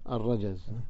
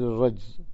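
First: A vowel follows the j sound. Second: No vowel follows the j sound. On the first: The speaker calls it right. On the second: The speaker calls it wrong.

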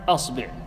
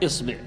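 First: The first vowel is a. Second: The first vowel is i. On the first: "وتفتح الهمزة فتقول" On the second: "وتكسر الهمزة فتقول"

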